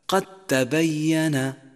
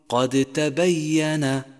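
First: The d merges into a doubled t sound. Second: The d is pronounced separately before the t. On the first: The speaker calls it right. "ندغم الأول في الثاني ونشدد الثاني فيصير اللفظ هكذا" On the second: The speaker calls it wrong. "وحاذر أن تقول قد تبين لأنه خطأ شائع"

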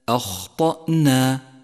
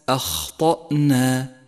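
The two takes are said the same way.

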